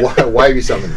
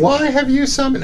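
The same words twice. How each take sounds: First: Said in the usual way. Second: Put-on high girly voice, pitched way up; girl voice. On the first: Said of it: "No, I'm not doing it". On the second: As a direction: squeak it out like a girl. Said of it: "Can you do a girl voice?".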